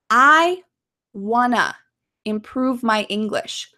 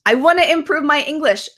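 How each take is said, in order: First: The sentence is spoken slowly. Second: The sentence is spoken quickly. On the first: "Let's say this slowly" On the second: "Let's say it quickly"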